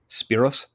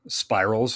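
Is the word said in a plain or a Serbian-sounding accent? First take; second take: Serbian; plain. First: The word is said in a Serbian-sounding accent. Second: The word is said in a plain accent.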